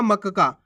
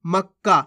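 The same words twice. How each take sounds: First: मक्का as ma-ka-kaa; vowel after the first क in मक्का; full-letter misreading. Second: मक्का as mak-kaa; half-letter pronunciation. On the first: Teacher shows full का, मक्का in three syllables. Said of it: "पूरा का आ गया". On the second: Teacher shows half का, मक्का with doubled क. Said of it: "आधा का पढ़ रहे हैं". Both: Shown as a demonstration.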